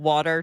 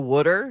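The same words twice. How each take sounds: First: It is said in a standard American accent. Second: It is said in a Philadelphia accent, like 'wooder'. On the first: "when water turns to" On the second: "turns to water"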